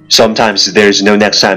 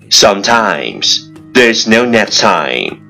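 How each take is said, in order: First: It is spoken at a very fast pace. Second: It is spoken at a slow, careful pace. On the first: "一口气最快语速" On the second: "let's repeat after me"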